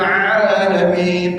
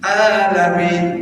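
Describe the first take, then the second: First: It begins with a throaty ain sound. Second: It begins with a plain vowel. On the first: The speaker calls it right. "alamin pakai ain" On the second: The speaker calls it wrong. "tapi dibaca alamin. Salah kan?"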